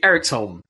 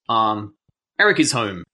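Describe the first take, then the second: First: Said as three syllables with 'is' reduced. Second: Said as four syllables with a separate 'is'. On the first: The speaker calls it right. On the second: The speaker calls it wrong.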